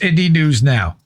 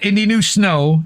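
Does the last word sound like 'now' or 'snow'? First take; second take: now; snow. First: The last word starts cleanly with an n sound. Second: The s sound carries over into the last word. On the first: The speaker calls it right. "It's Indie News Now" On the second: The speaker calls it wrong. "it's not Indie News Snow"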